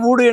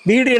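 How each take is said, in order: First: The word begins with an 'oo' sound. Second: The word begins with a 'vee' sound. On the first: This is the colloquial spoken form. "பேசும்போது ஊடு என்று பேசுகிறார்கள்" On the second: This is the standard written form. "நாம எழுதுற பொழுது வீடு என்றுதான் எழுதுவோம்"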